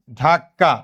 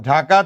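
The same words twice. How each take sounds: First: ধাক্কা with a held double k, "dhak-ka"; forceful doubled consonant. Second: Said in the usual way. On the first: Shown as a demonstration. Teacher showing gemination to class, ধাক্কা said forcefully with doubled k. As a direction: stop hard on the k in ধাক্কা before releasing "ka". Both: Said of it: "জোর দিয়ে উচ্চারণ করার জন্য".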